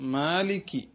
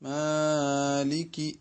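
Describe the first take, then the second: First: The first vowel has its ordinary length. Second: The first vowel is stretched much longer than normal. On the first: The speaker calls it right. "മാലിക് എന്ന് മാത്രം പറയുക" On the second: The speaker calls it wrong. "ആ നീട്ടൽ ശരിയല്ല"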